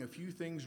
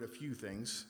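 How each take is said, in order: First: Said in the usual way. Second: "a few things" set apart for emphasis; stress on A FEW THINGS. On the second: Shown as a demonstration. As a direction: underline the words "a few things" as a phrase of their own. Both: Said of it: "I'm going to emphasize the word".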